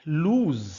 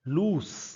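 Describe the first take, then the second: First: The word ends with a z sound. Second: The word ends with an s sound. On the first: The speaker calls it wrong. "लूज ज्यादातर लोग बोलते हैं।" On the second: The speaker calls it right. "ये शब्द है लूस। लूज नहीं है"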